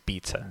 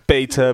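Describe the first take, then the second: First: It is pronounced the non-American way. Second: It is pronounced the American way. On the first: "the correct way to say it is beta" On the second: "I did say beta because they were American"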